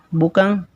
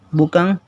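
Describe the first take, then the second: The two takes are said the same way.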